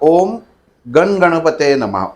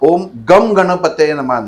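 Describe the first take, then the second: First: The syllable before ganapataye ends in an n sound. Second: The syllable before ganapataye ends in an m sound. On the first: The speaker calls it right. "उच्चार बघा" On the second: The speaker calls it wrong. "नाही"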